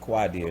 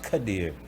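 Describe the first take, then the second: First: The name starts with a kw sound. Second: The name starts with a plain k sound. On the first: The speaker calls it wrong. "It's not Quadir" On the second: The speaker calls it right. "it's actually pronounced Kadir"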